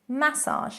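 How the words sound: It is pronounced the British way. "massage in British English"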